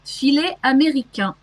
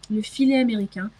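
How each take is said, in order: First: 필레 아메리캥, 프랑스식 발음; French pronunciation. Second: "Le filet américain" in quick native French, "filet" as fee-LAY; "Le filet américain" said fast, the French way with the article. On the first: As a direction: say "Filet américain" the French way, fee-LAY ah-may-ree-KAN. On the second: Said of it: "I actually don't know how to translate that". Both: Shown as a demonstration.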